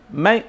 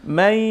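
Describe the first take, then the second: No difference in how they are said.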